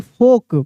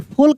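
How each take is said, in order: First: No l sound is pronounced before the k. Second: An l sound is pronounced before the k. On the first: The speaker calls it right. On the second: The speaker calls it wrong.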